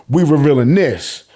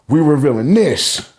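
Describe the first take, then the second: No difference in how they are said.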